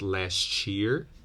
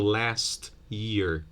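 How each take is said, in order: First: The t and y merge into ch. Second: The t is a plain t sound.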